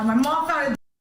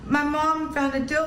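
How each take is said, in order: First: It is said boldly, with confidence. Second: It is said timidly, without confidence. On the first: The speaker calls it right. "you have to say it like this" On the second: The speaker calls it wrong. "You can't look like a pussy"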